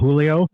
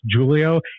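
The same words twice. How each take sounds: First: The name begins with an H sound. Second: The name begins with a J sound. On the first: "In the Spanish language, and uh, it's uh, as an H" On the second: "in the Portuguese language, uh, the J is pronounced uh, as a J"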